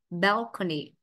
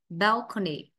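Both takes have the same delivery.

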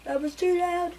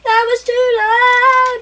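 First: Said softly, much quieter; soft, playful take on "too loud". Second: Louder, higher and slowed, "loud" stretched; playfully shouting about being too loud; loud mock repeat. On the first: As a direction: hush it down, a mock-sheepish murmur. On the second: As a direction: ham it up, booming the word "loud". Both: Shown as a demonstration.

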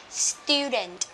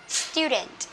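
The two takes are said the same way.

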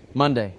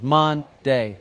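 First: Said in the usual way. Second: "Mon-day" drawn out as two separate beats; split into syllables. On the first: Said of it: "Jane beams and says". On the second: A narrator's reading. Teacher counts two syllables, "Mon-day" broken in two. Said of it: "that's got two syllables".

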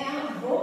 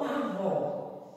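First: Avô with a closed, higher final Ô. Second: Avó with an open, drawn-out final Ó. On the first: Teacher contrasting two accents for children, avô with closed Ô. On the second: Teacher contrasting two accents for children, avó with open Ó. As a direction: say "avó" slowly, ending on an open O. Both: Shown as a demonstration. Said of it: "acento agudo ou acento circunflexo".

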